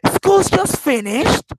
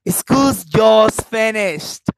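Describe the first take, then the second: First: It is said in a surprised tone. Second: It is said in a happy tone. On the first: The news is unexpected. "it means that I am surprised about this news" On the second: The speaker is glad about it. "you see my happiness?"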